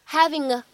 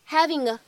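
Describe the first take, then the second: The two takes are said the same way.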